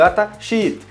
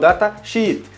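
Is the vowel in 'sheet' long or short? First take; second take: long; long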